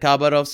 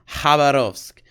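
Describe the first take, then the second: First: The name begins with a hard K sound. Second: The name begins without a hard K sound. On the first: This is how people say it from the spelling. "people call it Khabarovsk because there's a K in it" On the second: This is how Russians say it. "the real pronunciation, according to the Russians"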